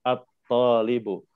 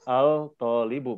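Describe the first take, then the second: First: Slow "At-talibu", the l of "al" silent, straight into a doubled t; lam assimilated. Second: "al-talibu" with the l of "al" pronounced before the t; lam wrongly sounded. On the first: Teacher correcting a learner's reading, slowly merging lam into t. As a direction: skip the lam in "At-talibu" and land on the heavy "tol". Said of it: "langsung loncat ke tolnya". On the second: Teacher showing the learner what not to read, l sounded. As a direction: say "al-talibu" keeping a separate, audible l. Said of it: "Jadi jangan membaca". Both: Shown as a demonstration.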